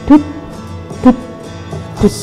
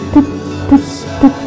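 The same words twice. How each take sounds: First: The beats come at a slower, normal pace. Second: The beats come at a quicker pace. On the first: The heart is beating at rest. "Kalau normalnya mungkin" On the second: The heart is beating after running. "akan terasa lebih cepat lagi denyutnya"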